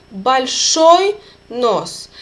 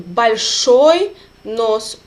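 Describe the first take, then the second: First: Большой said slowly, ending ой stressed; stressed ending shown. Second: Большой slowly, weight on the final ой; stressed ending shown. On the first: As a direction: stretch out большой, leaning on ой. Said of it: "if the ending is stressed". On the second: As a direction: draw out Большой nice and slow. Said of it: "Ой will be stressed ending". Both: Shown as a demonstration.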